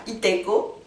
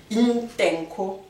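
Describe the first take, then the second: First: Itenko with no N, said as a plain i before the t; wrong version. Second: Intenko with a breathy, aspirated N before the k; slow, careful Intenko with the nasal N pushed out. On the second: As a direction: stretch Intenko slowly, breathing out on the N. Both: Shown as a demonstration. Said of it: "c'est pas itenko".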